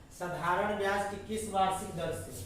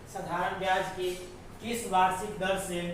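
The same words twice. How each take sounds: The two takes are said the same way.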